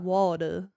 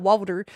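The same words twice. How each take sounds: First: A Texas drawl with the final R dropped. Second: The final R is clearly pronounced.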